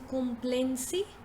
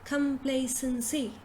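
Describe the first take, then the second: First: The first syllable does not sound like 'come'. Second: The first syllable sounds like 'come'. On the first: The speaker calls it wrong. "instead of saying complacency" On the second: The speaker calls it right. "you say complacency ... ka first, ka, come"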